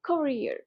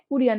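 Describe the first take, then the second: First: The first vowel is a rounded 'o' sound. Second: The first vowel is an 'oo' sound. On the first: The speaker calls it right. "ঠোঁটটা গোল করতে হয় উচ্চারণে" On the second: The speaker calls it wrong. "এখানে কুরিয়ার না"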